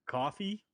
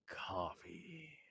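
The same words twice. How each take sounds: First: It is said in his natural voice. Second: It is said in a seductive voice.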